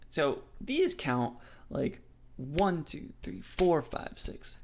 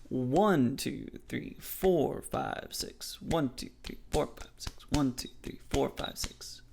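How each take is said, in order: First: "one, two, three, four, five, six" with "one" and "four" stressed and the rest dropped near to a whisper; counting in threes. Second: "one" and "four" voiced and stressed, "two, three" and "five, six" almost whispered; counting in threes. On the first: Teacher counting six eight, stressing every third beat. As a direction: lean on "one" and "four", murmur the others. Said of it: "Every third beat, we have that emphasis".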